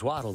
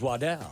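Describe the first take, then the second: First: The name is said in a plain English way. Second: The name is said in a French-sounding way. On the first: "my last name's Waddle" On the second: "The fine French pronunciation is Waddell"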